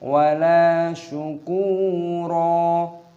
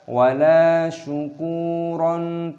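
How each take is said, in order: First: The last word ends with a long vowel. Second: The last word ends with an n sound. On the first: The speaker calls it right. "tapi wala syukuro" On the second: The speaker calls it wrong. "jangan dibaca wala syukuron"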